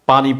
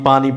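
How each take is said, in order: The two takes are said the same way.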